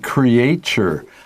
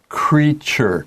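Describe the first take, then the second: First: It uses an older, less common pronunciation. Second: It uses the current, standard pronunciation.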